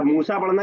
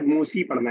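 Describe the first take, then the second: First: मूसा with a final long aa; alif reading. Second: मूसी with a final long ee; ya reading. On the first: Teacher contrasting readings for the class, मूसा ending in aa. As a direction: end मूसा on the aa sound. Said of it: "तो वो अलिफ पढ़ा जाएगा". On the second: Teacher contrasting readings for the class, मूसी ending in ee. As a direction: end मूसी on the ee sound. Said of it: "तो वो या पढ़ा जाएगा". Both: Shown as a demonstration.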